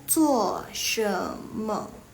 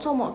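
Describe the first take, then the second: First: The phrase is said fully in three syllables. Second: The phrase is squeezed into two short syllables. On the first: This is the form speakers in China understand. "Kalau dipanjangin itu maksudnya" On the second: This is how Malaysian Mandarin speakers say it. "itu yang Malaysia guys"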